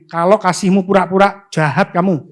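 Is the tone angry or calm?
calm. It is said in a calm, plain tone.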